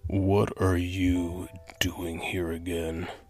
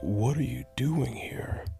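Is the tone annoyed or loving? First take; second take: annoyed; loving. First: It sounds annoyed and scolding. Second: It sounds gentle and loving.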